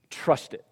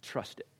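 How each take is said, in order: First: Said in the usual way. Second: Much softer Trust it; quiet urging to the congregation; soft repetition. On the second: Shown as a demonstration. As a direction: drop to an earnest hush.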